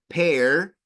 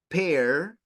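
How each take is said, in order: First: The final R sound is clearly pronounced. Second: The final R sound is clearly pronounced.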